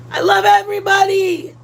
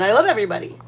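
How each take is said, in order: First: Higher, louder gushing declaration; big sweeping shout-out to everyone. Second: Said in the usual way. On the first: Real, not acted. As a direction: throw love out to the whole chat. Gushing to chat, then correcting.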